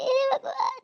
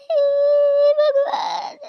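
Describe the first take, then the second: First: High but quiet tearful sigh to God; faded tearful hey Bhagwan; softer sobbing sigh. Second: High, slow, shouted sobbing call; loud wailing hey Bhagwan; sobbing cry to God. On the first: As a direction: let the cry to God fall away. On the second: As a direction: cry out to God in full wail. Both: Acted. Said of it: "आपको रोना नहीं है बिल्कुल".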